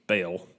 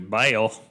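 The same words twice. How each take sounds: First: It is said in a plain accent. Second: It is said in a Southern preacher accent.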